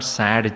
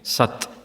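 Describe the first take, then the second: First: The word ends with a d sound. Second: The word ends with a t sound. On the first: The speaker calls it wrong. "Not sad Chit Ananda" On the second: The speaker calls it right.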